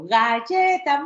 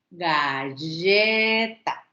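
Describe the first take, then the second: First: Slow, high praising "galleta"; praising a toddler. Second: "galleta" very slow, each syllable separated. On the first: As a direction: cheer the child on gently. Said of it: "Ah, perfecto". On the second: Therapist showing parents how to split a word. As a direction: break "galleta" into syllables, slowly. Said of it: "silábicamente sepáraselo". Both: Shown as a demonstration.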